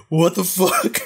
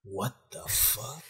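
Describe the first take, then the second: First: Higher and louder, a startled shout; mock yell of disbelief; loud shocked outburst. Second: Softer and slow, a stunned murmur; quiet slow disbelief. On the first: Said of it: "And Moriya's like". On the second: Retold or imitated. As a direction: let it slip out quietly, dragging. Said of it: "Ishimori's like".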